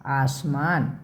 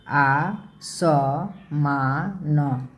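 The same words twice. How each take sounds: First: Said in the usual way. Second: Slow, drawn-out syllables. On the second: Shown as a demonstration. Teacher sounding out a word for children, slowly.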